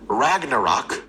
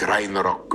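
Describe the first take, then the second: First: The name is said with an English pronunciation. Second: The name is said with a Norwegian pronunciation. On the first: The speaker calls it wrong. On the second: The speaker calls it right.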